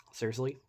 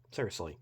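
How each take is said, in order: First: "Seriously" pitched up with a rising end; incredulous question. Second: "Seriously" lower, with a falling end; exasperated statement. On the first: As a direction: ask "Seriously" in disbelief, voice lifting at the end. Reacts to Pulley finally cooperating. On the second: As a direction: say "Seriously" as a let-down, voice dropping. Repeats it in exasperation. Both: Real, not acted.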